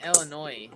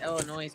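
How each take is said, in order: First: Said in the usual way. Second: Illinois with a Z on the end; Illinois pronounced "illa-noise"; final S sounded. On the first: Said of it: "I never heard it Illinois". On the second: Shown as a demonstration. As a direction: let the last S of Illinois be heard as Z. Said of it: "I never heard it Illinois before".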